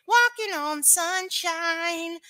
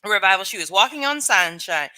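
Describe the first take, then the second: First: High, slow sung line. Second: Said in the usual way. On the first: Acted. Echoing a viewer's comment, sung high and slow. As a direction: sing it out like the song. Echoes the song title.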